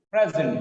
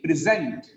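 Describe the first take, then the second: First: PREsent, with short e in Pre; stress on first syllable. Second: "Present" as verb, pri-ZENT; weak pri, strong ZENT in "Present"; stress on second syllable. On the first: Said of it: "The first syllable is stressed". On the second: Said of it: "Pre becomes pre in the second". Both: Shown as a demonstration.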